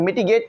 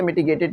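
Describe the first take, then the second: First: "मिटिगेट" ending on a single t, "miti-gate"; short word form. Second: "मिटिगेटेड" with an added "-ed" syllable; rejected long form. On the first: Teacher offering how it will be read, "मिटिगेट" ending in "gate". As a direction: end "मिटिगेट" at gate, no extra syllable. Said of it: "या मिटिगेट पढ़ा जाएगा". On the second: Teacher saying how not to read it, "मिटिगेटेड" ending in "-ted". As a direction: finish "मिटिगेटेड" on a sounded "ted". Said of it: "इसे मिटिगेटेड नहीं पढ़ा जाएगा". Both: Shown as a demonstration.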